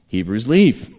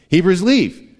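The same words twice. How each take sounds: First: Said in the usual way. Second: "leave" drawn out slowly with a fall; stress on leave. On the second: Shown as a demonstration. Preacher repeats the promise for emphasis, slow and stressed. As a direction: repeat it higher and slower, landing on "leave".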